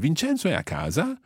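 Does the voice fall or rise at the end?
rise. The voice rises at the end. It asks whether Vincenzo is at home. "by raising your voice at the end, then you can make it into a question"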